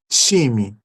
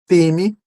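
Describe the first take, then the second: First: It begins with a ch-like sound. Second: It begins with a plain t sound. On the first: "com T e X" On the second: "pronúncia apenas com T"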